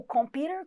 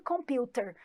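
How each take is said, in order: First: American flap in computer. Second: Computer with a crisp t and no r at the end; British t in computer. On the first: Teacher contrasting American and British accents, American way. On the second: Teacher contrasting American and British accents, British way. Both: Shown as a demonstration. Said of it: "Na pronúncia britânica".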